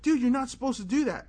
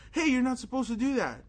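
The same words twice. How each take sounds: First: Higher, louder outraged complaint; indignant protest. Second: Raised, higher scolding retort; indignant protest. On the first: Boy scolding the priest for opening the door, loud and high. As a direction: call him out, half yelling. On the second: Boy repeating his complaint to the priest, raised and high. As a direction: tell him off, voice up. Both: Retold or imitated.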